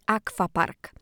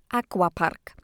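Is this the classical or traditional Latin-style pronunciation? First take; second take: traditional; classical. First: It follows traditional Latin reading pronunciation. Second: It follows classical Latin and English pronunciation. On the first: "w zgodzie z zasadami wymowy tradycyjnej łaciny" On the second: "zgodnie z zasadami naukowej rekonstrukcji autentycznej wymowy łaciny z okresu klasycznego oraz w zgodzie z wymową angielską"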